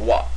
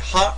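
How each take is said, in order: First: The particle begins with a W sound. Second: The particle begins with an H sound. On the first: The speaker calls it right. "It's wa because it's used as a grammatical particle" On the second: The speaker calls it wrong. "Is it ha or wa?"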